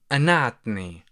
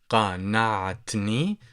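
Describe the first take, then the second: First: The word begins with a glottal stop. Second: The word begins with a deep q sound. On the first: "people tend to pronounce the letter qaf as uh, the glottal stop" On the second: "قاف"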